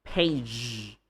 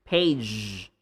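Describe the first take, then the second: The two takes are said the same way.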